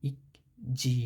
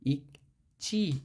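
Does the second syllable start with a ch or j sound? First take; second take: j; ch. First: The second syllable starts with a j sound. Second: The second syllable starts with a ch sound. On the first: The speaker calls it wrong. "এখানে হওয়ার কথা ছিল" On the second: The speaker calls it right. "এখানে উচ্চারণ হয়েছে ইক চি"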